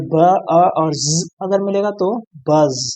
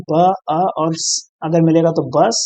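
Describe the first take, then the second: First: ब, अ, buzzed ज़, then बज़ ending in a voiced "z"; sounds blended into word. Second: ब, अ, hissed स, then बस ending in a voiceless "s"; sounds blended into word. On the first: Teacher blending sounds into buzz, voiced final ज़ in बज़. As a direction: sound out ब, अ, ज़ and join them as बज़ with a buzz at the end. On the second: Teacher blending sounds into bus, hissed final स in बस. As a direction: sound out ब, अ, स and join them as बस with a hiss at the end. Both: Shown as a demonstration. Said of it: "अगर आप मिलाकर देखें".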